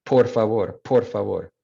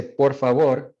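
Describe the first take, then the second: First: Gringo-accented por favor, aspirated P; Spanish with an American accent and airy p. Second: Por favor with an unaspirated P; native Spanish P. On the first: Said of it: "kind of like that gringo accent". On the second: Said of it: "the only difference being the air on the P". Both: Shown as a demonstration.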